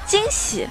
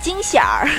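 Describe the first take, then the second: First: The word ends without an added r sound. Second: The word ends with an added r sound. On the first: The speaker calls it right. "我们肯定是平时是不加儿的" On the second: The speaker calls it wrong. "如果你加了惊喜儿，就好奇怪"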